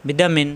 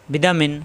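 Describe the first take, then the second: No difference in how they are said.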